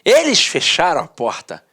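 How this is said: It is read in a happy, lively way.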